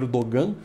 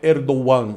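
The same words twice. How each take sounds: First: The name is pronounced the common Brazilian way. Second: The name is pronounced the Turkish way. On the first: The speaker calls it wrong. "O pessoal pronuncia o nome dele como Erdogan" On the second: The speaker calls it right. "a pronúncia correta em turco é Erdogan"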